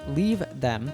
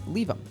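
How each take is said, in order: First: The th sound in them is pronounced. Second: The th sound in them is dropped. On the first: "Instead of saying leave them" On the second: "the th in them falls away"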